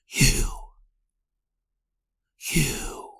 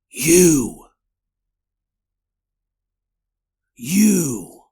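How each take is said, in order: First: It is said in a whisper. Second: It is said aloud, not whispered.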